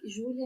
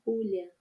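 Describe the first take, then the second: First: The name starts with a soft zh sound. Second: The name starts with a raspy throat sound.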